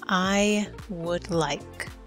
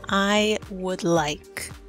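The two takes are said the same way.

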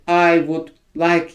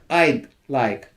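First: The word would is said in full. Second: The word would is shortened to a d.

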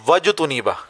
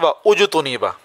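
First: Wa runs straight into the next syllable. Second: A glottal stop separates wa from the next vowel. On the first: The speaker calls it right. "लेकिन असल में पढ़ना चाहिए" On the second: The speaker calls it wrong. "आगे कुछ लोग पढ़ते हैं"

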